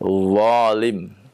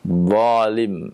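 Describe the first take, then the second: Both takes have the same delivery.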